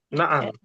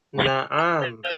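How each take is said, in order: First: The vowel is kept short. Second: The vowel is held long. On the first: The speaker calls it right. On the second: The speaker calls it wrong. "Jangan bacanya na'am"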